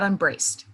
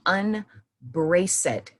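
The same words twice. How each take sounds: First: The -ed ending is not sounded as a syllable. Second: The -ed ending is sounded as an extra syllable. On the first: The speaker calls it wrong. "Not unbraced" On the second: The speaker calls it right. "I said unbraced"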